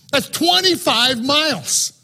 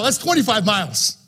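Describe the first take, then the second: First: "twenty-five" stressed, slower and higher; slow, raised marvelling emphasis on "twenty-five"; emphatic repeat. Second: Said in the usual way. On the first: Shown as a demonstration. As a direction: lean hard on "twenty-five miles".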